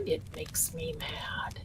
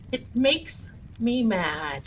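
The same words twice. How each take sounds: First: Breathy whispered aside, pitched up. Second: Said in the usual way. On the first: Real, not acted. Streamer whispers her anger to the chat, then repeats it aloud. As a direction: hiss it under your breath.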